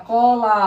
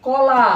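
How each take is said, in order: First: কলা said again with a long open লা; drawn-out la. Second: কলা said loud with the লা stretched long; drawn-out la. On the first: Teacher repeating the example word, stretching the final লা. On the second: Teacher showing students the open-mouth ending in কলা, loud and drawn out. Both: Shown as a demonstration. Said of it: "লা টানা যাচ্ছে".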